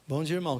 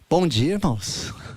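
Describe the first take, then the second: First: The greeting is said flat, with little energy. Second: The greeting is said lively, with more energy.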